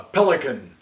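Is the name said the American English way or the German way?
American English. It is said with an American English pronunciation. "the old American or Western English"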